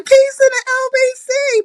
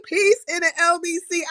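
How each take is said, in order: First: Called-out high signature greeting; big sing-song hello to viewers; loud greeting. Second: Said in the usual way. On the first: Real, not acted. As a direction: shout the greeting to the chat.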